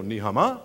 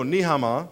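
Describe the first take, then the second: First: "Ni hao ma" rising sharply at the end; upward tune. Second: "Ni hao ma" kept down at the end; downward tune. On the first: Comic showing how meaning changes, "Ni hao ma" going up. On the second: Comic demonstrating Chinese accent, "Ni hao ma" going down. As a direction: say "Ni hao ma" without lifting the last syllable. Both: Shown as a demonstration. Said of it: "If you go up with an accent when you're supposed to go down".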